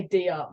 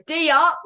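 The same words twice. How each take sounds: First: Said in the usual way. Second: Loud, high Aussie "D up" call; very Australian accent. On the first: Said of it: "then we say". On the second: Retold or imitated. Player mimicking Bella on the bench, very Australian call. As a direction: imitate a teammate's broad Australian shout. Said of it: "She says it so Australian".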